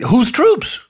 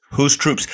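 First: High, loud scoffing "whose troops?"; incredulous. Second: Said in the usual way. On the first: Acted. Host mocking the president's troop blessing, incredulous. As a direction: throw the question back in mock disbelief.

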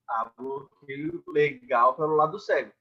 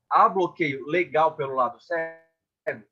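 First: "Há bloqueio legal pelo lado cego" stated slowly and firmly, falling at the end; answering tune. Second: "há bloqueio legal pelo lado cego?" asked slowly with a questioning tune; asking tune. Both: Shown as a demonstration.

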